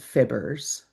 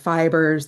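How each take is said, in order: First: The first vowel is a short 'ih' sound. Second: The first vowel is a long 'eye' sound. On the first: The speaker calls it wrong. "they said fibbers" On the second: The speaker calls it right. "Instead of fibers"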